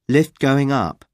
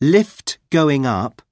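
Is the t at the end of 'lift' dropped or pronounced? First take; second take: dropped; pronounced. First: The t at the end of lift is dropped. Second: The t at the end of lift is pronounced.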